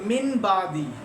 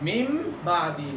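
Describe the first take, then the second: First: The word ends with an n sound before b. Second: The word ends with an m sound before b. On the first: The speaker calls it wrong. "हम ऐसे नहीं पढ़ते" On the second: The speaker calls it right. "तो हम क्या पढ़ते हैं मिम बादी"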